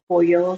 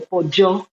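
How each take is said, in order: First: It is said the usual, non-Argentine way. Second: It is said with an Argentine accent.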